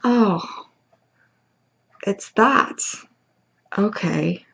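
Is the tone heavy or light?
heavy. It sounds heavy and weighed down.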